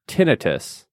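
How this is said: The word is said the British way. This is how British speakers and health professionals say it. "The British and healthcare professional pronunciation tends to sound like"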